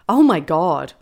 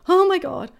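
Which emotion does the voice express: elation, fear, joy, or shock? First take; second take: elation; fear. First: It is said with an elated tone. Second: It is said with a fearful tone.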